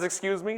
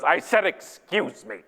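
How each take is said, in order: First: Soft, higher-pitched courteous prompt; mildly ask, with a slight lift; polite request. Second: Slow, emphatic imitation of a rebuke; imitated curt retort. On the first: Retold or imitated. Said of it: "Not one of you says". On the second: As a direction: stretch out the repeated courtesy pointedly. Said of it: "it was a very low voice".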